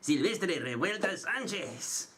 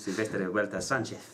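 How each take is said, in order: First: It is said with a Mexican Spanish accent. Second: It is said with a Castilian Spanish accent.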